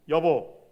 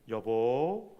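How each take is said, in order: First: It sounds reproachful, like a complaint. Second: It sounds coaxing, like asking a favor.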